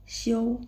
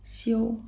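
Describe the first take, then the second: The two takes are said the same way.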